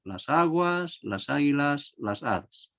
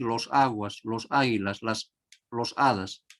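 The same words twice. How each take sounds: First: Las aguas, las águilas, las hadas said as the right forms; correct form. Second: Los aguas, los águilas, los hadas said as the wrong forms. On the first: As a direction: model the feminine plural. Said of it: "sino en femenino". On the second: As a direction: give them as mistakes. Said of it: "no vamos a decir". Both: Shown as a demonstration.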